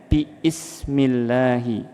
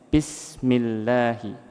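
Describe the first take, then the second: First: Bi and ismi are said as separate parts. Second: Bi and ismi merge into one smooth word. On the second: "maka digabung menjadi"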